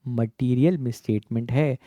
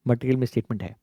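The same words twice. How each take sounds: First: It is spoken a little more slowly. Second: It is spoken at a normal, quicker pace.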